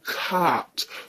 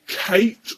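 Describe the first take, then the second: First: The vowel is a long 'ah' sound. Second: The vowel is a long 'ay' sound. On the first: "or cart" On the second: "You can either say Kate"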